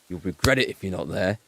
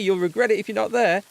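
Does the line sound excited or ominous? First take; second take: ominous; excited. First: It is said in a dark, ominous tone. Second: It is said in an excited, upbeat tone. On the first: Something bad will happen if you stay away. "that's a very different tone" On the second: The party will be amazing. "that sounds like it's an epic thing"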